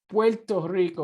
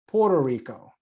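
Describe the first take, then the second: First: The first word is said as Puerto. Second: The first word is said as Porto. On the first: The speaker calls it right. "it is Puerto Rico" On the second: The speaker calls it wrong. "not Puerto Rico"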